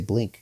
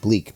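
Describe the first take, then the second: First: The word is said with a short vowel and nasal. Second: The word is said with a long vowel, no nasal. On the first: The speaker calls it right. "I mean to say Blink" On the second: The speaker calls it wrong. "I feel like I was mispronouncing that. I, I keep I kept saying Bleak"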